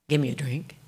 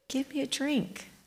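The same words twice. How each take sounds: First: It is said in an ugly, harsh tone. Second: It is said warmly, with a smile.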